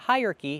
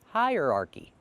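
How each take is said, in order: First: The word is said with three syllables. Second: The word is said with four syllables. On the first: The speaker calls it wrong. "Not hierarchy, not three" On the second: The speaker calls it right. "but four"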